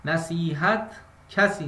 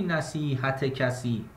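First: نصیحت کسی read as nasihat-kasi, no ezafe vowel; نصیحت کسی said without the -e joining the two words; correct reading. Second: نصیحت کسی read as nasihate kasi, with an added e; نصیحت کسی said with an extra ezafe vowel; wrong reading. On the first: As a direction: link نصیحت straight into کسی with no e between them. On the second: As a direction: put a short e after نصیحت before کسی. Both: Shown as a demonstration. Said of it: "نخونی نصیحت کسی".

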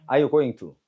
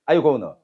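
First: "going to" said in full with its T; British-style going to. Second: "gonna" reduced to "go-nuh", no T; American-style gonna. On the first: Teacher demonstrates the British way, full "going to". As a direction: say "are you going to" with a distinct "going-tu". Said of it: "영국식은". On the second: Teacher demonstrates the American way, reduced gonna. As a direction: say "are you gonna" blended into one run. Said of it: "미국식은". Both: Shown as a demonstration.

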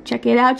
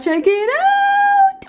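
First: Said in the usual way. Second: Stretched high, slow check it out; playful high squeal of check it out; sing-song high. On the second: Shown as a demonstration. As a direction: sing it out excitedly to viewers.

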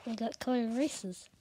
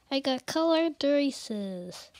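First: Said in the usual way. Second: Excited. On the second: Real, not acted. Repeats excitedly, much louder.

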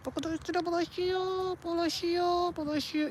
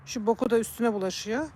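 First: Whiny pet talk. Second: Said in the usual way. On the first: Real, not acted. (yüksek perdeden, yumuşak bebek sesiyle)

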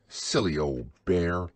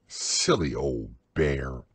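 First: Fond and gentle, a loving tease. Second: Low, slow, fond murmur; loving. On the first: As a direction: say it like a hug. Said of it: "in such a loving voice". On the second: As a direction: send him off with love. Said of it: "looked after him lovingly". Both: A narrator's reading.

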